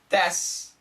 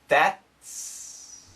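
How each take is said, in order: First: The t sound is nearly dropped into the s. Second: The t sound is clearly stopped and pronounced. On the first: "But when we say it fast" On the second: "So perfect pronunciation"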